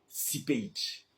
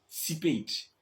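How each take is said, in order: The two takes are said the same way.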